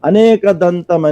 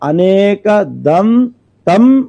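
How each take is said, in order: First: There is a break after aneka, before dantam. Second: There is a break after dam, before tam. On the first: The speaker calls it wrong. "అనేక దంతం అని చెప్పేస్తూ ఉంటారు" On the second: The speaker calls it right. "విడదీసి పలికే"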